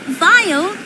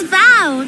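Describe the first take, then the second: First: The name rhymes with 'pile'. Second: The name rhymes with 'pal'. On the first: The speaker calls it wrong. "not Vile" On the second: The speaker calls it right. "It's Val"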